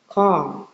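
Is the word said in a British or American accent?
American. It is said in an American accent.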